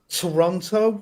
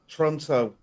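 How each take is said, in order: First: All three syllables are pronounced in full. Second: The middle syllable is dropped or shortened.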